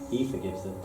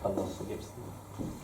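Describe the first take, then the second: First: He said with a light push; stress on he. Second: Allah drawn out and rising, spoken slowly; stress on Allah. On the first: Teacher contrasting who forgives, with he lightly stressed. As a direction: lean on the word he to set it against Allah. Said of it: "it's not". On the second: Teacher correcting himself, with Allah stressed and slow. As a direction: slowly lift the word Allah to make it the answer. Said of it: "it's not he forgives them". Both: Shown as a demonstration.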